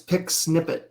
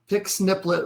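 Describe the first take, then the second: First: The second word has no L sound. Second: The second word has an added L sound. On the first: The speaker calls it right. "It's pic snippet, isn't it? I don't think there's an L" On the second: The speaker calls it wrong. "these two guys keep putting an L in snippet"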